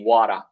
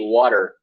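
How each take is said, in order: First: It is said in a British accent. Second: It is said in an American accent. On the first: "the British one we say" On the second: "in American English we say"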